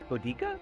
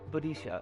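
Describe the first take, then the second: First: The consonant near the end is a k sound. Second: The consonant near the end is an sh sound. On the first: The speaker calls it right. "like a K sound" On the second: The speaker calls it wrong. "whose name I'm probably mispronouncing"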